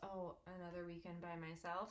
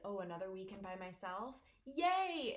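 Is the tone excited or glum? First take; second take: glum; excited. First: It sounds glum and disappointed. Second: It sounds happy and excited.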